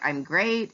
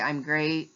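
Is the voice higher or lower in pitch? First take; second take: higher; lower. First: The voice is higher and cheerful. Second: The voice is lower and flat. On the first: The person really is doing well. "and I smile" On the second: The person is not really doing well. "have my voice kind of lower"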